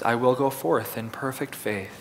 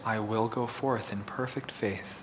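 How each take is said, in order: First: It is spoken in a normal full voice. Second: It is spoken in a quieter, softer voice. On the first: "In a regular voice" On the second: "Now in a softer voice"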